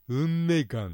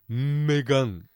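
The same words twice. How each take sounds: First: The pitch falls right after the syllable 'me'. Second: The pitch falls right after the syllable 'ga'. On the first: The speaker calls it wrong. "うんめがんってなくて" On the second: The speaker calls it right. "うんめががからんに落ちんだね、正しくは"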